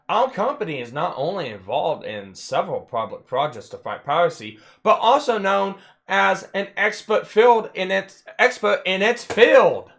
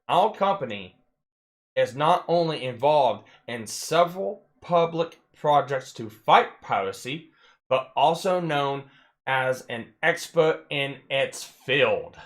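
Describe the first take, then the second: First: It is read at a normal speed. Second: It is read very slowly.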